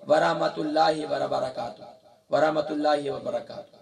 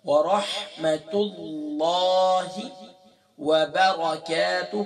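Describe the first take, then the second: First: ورحمت اللہ وبرکاتہ run together quickly, the ہی joining اللہ to وبرکاتہ slurred; wrong recitation demo. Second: Slow, ورحمت اللہ with a stop at اللہ, then وبرکاتہ alone; correct careful recitation. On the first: Teacher showing students the common mistake, quick careless reading. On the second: Teacher giving students the right reading, slow and deliberate. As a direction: recite ورحمت اللہ slowly with a clean pause before وبرکاتہ. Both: Shown as a demonstration. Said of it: "تو یہ غلط ہے۔".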